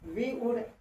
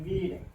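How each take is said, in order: First: It is said as two separate full words. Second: It is said as one short contracted word. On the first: The speaker calls it wrong. "इसको वी वुड नहीं बोलेंगे" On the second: The speaker calls it right. "इसे वीड कहेंगे"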